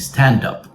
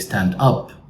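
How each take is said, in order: First: The final consonant joins the next vowel. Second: The two words are said separately. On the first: The speaker calls it right. "We want people to say stand up" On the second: The speaker calls it wrong. "we don't want people to say stand up"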